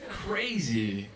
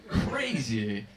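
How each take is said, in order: The two takes are said the same way.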